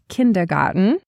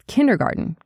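First: The D and T sounds are clearly pronounced. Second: The D and T sounds are barely heard. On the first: The speaker calls it wrong. "It's not kindergarten" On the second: The speaker calls it right. "you can't almost hear that D or the T in the word"

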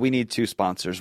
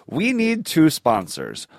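First: It is said at a normal pace. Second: It is said a little more slowly.

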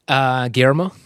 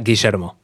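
First: The name is said with an American pronunciation. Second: The name is said with an Argentinian Spanish pronunciation. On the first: "which is my Americanized name" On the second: "My Argentinian name"

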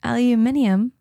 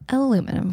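First: It has five syllables, stress on the third. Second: It has four syllables, stress on the second.

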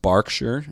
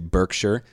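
First: It is said with a British pronunciation. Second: It is said with an American pronunciation. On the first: The speaker calls it right. "but it's actually pronounced Berkshire" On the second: The speaker calls it wrong. "It is spelled how Americans would say Berkshire"

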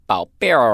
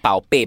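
First: It is said with an added R sound. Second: It is said without an added R sound. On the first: "It has an R sound. It's a very mainland China kind of inflection" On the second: "So not Bao Bei"

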